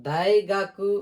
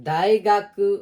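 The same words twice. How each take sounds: The two takes are said the same way.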